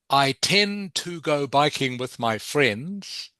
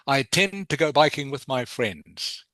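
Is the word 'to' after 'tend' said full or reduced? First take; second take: full; reduced. First: The word 'to' is said fully after 'tend'. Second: The word 'to' is reduced to a t sound. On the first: "instead of" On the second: "turn the two into just a t, t sound"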